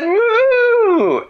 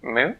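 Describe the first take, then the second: First: Very high, loud, long moo; emphatic cow. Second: Short, questioning moo; tentative moo. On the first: Cow replying to Dan's attempt, high emphatic moo. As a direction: blast out a high-pitched moo. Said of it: "And the cow said". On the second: Dan trying cow talk with head cocked, tentative moo. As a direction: try out a small moo as a puzzled question. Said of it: "Dan sort of twisted his head to one side". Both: Acted.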